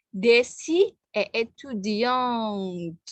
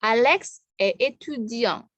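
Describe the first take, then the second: First: Étudiante with the t clearly sounded; slow feminine étudiante, t heard; sounded final t. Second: Étudiant ends on the nasal ang, t silent; slow masculine étudiant; silent final t. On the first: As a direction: feminine form, t pronounced. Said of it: "Ada T-nya". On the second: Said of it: "Berhentinya di ang". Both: Shown as a demonstration.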